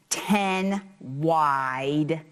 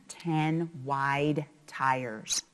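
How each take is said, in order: First: Said in the usual way. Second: "Ten wide tires" drawn out slowly, each word weighted; slow and big. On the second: Shown as a demonstration. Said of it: "capitals bigger".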